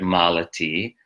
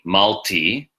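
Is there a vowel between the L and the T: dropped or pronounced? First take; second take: pronounced; dropped. First: A full vowel is sounded between L and T. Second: The middle vowel is dropped between L and T. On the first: This is the original Sanskrit form. "but it's really Sanskrit" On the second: This is the Hindi form. "you pronounce it in Hindi"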